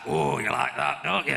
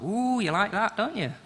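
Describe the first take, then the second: First: It is said in a manly voice. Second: It is said in a camp voice.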